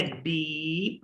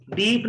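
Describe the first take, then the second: First: डीप very slow and soft, P unreleased; long, softer डीप with a swallowed P; unaspirated final P. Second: Said in the usual way. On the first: Shown as a demonstration. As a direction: stretch the vowel of डीप and close the lips without a puff. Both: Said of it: "डीप नहीं है".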